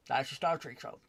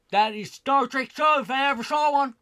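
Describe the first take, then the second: First: Said in the usual way. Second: Hammed-up pitchman selling a bad show; mock announcer. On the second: Mocking the Star Trek writers.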